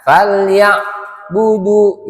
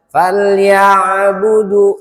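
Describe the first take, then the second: First: The sound drops out briefly in the middle. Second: The ain is heard and the word flows on. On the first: The speaker calls it wrong. "ada suara yang hilang di situ" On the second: The speaker calls it right. "bunyi ainnya itu sukun kedengeran dia"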